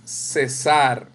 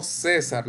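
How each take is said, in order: First: "cesar" slowly, as ce-SAR; teacher's slow corrected ce-SAR for "cesar"; stress on last syllable. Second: "César" as CÉ-sar, like the name; stress on first syllable. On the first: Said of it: "Es cesar". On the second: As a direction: put the weight on CÉ in "César". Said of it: "no César, no el nombre". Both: Shown as a demonstration.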